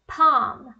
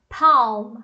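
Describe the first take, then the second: First: "palm" said PAHM; silent L. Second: "palm" slow, with a heavy L; wrong, L pronounced. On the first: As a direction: model "palm" without any L. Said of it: "o L não é pronunciado". ("palm" com L mudo, PAAM) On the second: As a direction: drag out the L in "palm" to show the error. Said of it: "A gente não tem um L aí". ("palm" devagar, com L errado) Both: Shown as a demonstration.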